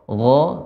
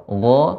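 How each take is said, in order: Both takes have the same delivery.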